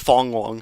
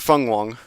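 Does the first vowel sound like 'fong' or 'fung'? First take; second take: fong; fung. First: The first syllable is said with an 'o' vowel. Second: The first syllable is said with a 'u' vowel. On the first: The speaker calls it wrong. "initially mispronouncing it as Fong Wong" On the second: The speaker calls it right. "but I think it's Fung Wong"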